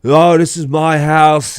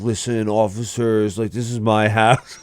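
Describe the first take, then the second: First: Imitated drunken insistence; drunk earnest protest. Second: Mock-earnest appeal at normal volume; understated imitation of a serious drunk. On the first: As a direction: wail it like an indignant drunk kid. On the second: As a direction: address the officers in dead earnest. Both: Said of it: "like, so serious".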